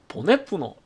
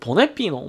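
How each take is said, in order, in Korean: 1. 세 번째 음절은 둥근 'u' 모음이에요. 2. 세 번째 음절은 앞쪽 'i' 모음이에요. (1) "경북 사투리로" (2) "경남 같으면"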